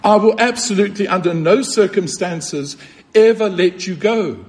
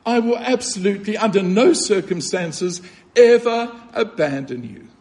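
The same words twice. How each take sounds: First: Fast and insistent, leaning on absolutely and ever; emphatic promise. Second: Tender repeat. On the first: Preacher voicing Christ's vow to the congregation, emphatic. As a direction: press every word of the vow home. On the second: Preacher repeating Christ's vow to the listener, tender. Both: Shown as a demonstration. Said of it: "The English should probably be something like this".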